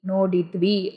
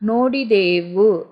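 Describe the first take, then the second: First: The syllables are shortened and run together. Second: All syllables are said in full. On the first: This is the spoken form. "Spoken form" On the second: This is the written form. "ரிட்டன் form"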